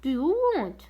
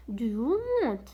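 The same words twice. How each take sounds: First: Said in the usual way. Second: Slow, careful repetition of Do you want; slow teacher demo; slow model phrase. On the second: Shown as a demonstration. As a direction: say each word slowly and clearly. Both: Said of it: "هذا سؤال مهم".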